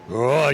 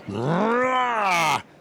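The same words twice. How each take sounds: First: The roar is flat and low in energy. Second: The roar is forceful and full of energy.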